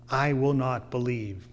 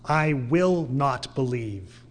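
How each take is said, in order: First: Said in the usual way. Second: Slow and deliberate, weight on "I will not believe."; emphatic, slow. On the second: Shown as a demonstration. Preacher showing the force of the Greek, emphatic and slow. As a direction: hit each word of "I will not believe." hard and slow. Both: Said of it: "in the Greek, it's emphatic".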